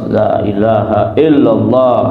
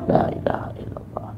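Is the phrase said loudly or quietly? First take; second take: loudly; quietly. First: The phrase is said loudly and clearly. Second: The phrase is said quietly and softly. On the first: The remembrance is voiced aloud so it is heard. The speaker calls it right. "zikir keras" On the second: The remembrance is kept low and barely voiced. The speaker calls it wrong.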